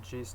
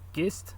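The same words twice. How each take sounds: First: It begins with a soft j sound. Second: It begins with a hard g sound. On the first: The speaker calls it right. "that's the gist" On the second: The speaker calls it wrong. "I used to say gist, but this is wrong"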